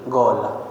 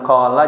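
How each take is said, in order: First: The word begins with a hard g sound. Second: The word begins with a deep back q sound. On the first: "para habaib bilang qala jadi gola" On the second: "Diucapin dengan qaf"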